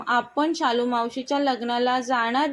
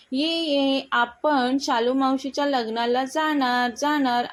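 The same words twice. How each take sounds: First: Said in the usual way. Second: Lightly voiced child's glad cheer; a mild happy chant of the news. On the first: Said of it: "राज म्हणाला". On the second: A narrator's reading. Son cheers to parents about the wedding, mildly joyful. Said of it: "आनंदाने राज म्हणाला".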